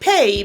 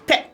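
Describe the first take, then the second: First: The vowel glides toward an ee sound. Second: The vowel stays a single steady sound. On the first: The speaker calls it right. "not like pay" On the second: The speaker calls it wrong. "but more like pe"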